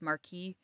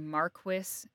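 First: It is pronounced the French way. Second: It is pronounced the English way. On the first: The speaker calls it right. "it's Marquis. It's a French word" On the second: The speaker calls it wrong. "In England, you all say Marquis, and that's ridiculous"

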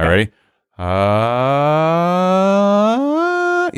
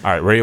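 First: It is spoken in a high falsetto voice. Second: It is spoken in the normal natural voice. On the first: "You hear that change? That's when he changes to his falsetto" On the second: "Listen to my voice"

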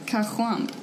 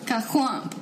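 First: It is said flatly, with little feeling. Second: It is said expressively, with more feeling. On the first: The speaker calls it wrong. "That was a bad... put some feeling into it" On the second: The speaker calls it right.

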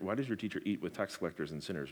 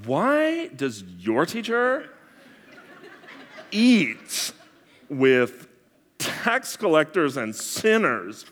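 First: It sounds like a sincere, honest question. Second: It sounds condescending, in a valley girl voice.

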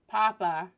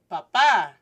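First: The stress is on the first syllable. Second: The stress is on the second syllable. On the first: It means potato. The speaker calls it wrong. "like papas fritas, french fries" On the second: It means father. The speaker calls it right. "calling him father"

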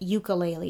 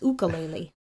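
First: The word begins with a 'you' sound. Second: The word begins with an 'oo' sound. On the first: The speaker calls it wrong. "these people are wrong. Stop saying it ukulele" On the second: The speaker calls it right. "It's ukulele"

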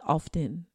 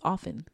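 First: The t sound is pronounced in the word. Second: The t sound is silent in the word. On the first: The speaker calls it wrong. "It's not often" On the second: The speaker calls it right. "Something is silent"

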